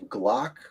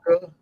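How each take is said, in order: First: The word ends on the k sound. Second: The word ends with an extra vowel sound. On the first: "Do you pronounce the E at the end of it? Of Glock?" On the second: "Or is it Glocke?"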